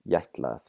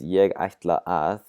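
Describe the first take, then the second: First: The words are squeezed into one short word. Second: Each word is said fully and separately.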